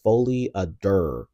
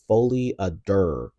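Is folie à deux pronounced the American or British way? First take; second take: American; American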